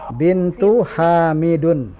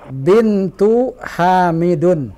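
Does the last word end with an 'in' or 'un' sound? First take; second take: un; un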